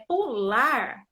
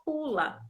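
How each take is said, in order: First: Pular drawn out slowly, stressed on LAR; tônica no LAR. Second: Pula with the first syllable PU stressed; tônica no PU. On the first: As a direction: stretch pular and press on its final LAR. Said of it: "a sílaba tônica mais forte". ("pular" devagar, com o LAR mais forte) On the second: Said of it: "a sílaba mais forte é o pu". ("pula" com o PU mais forte) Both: Shown as a demonstration.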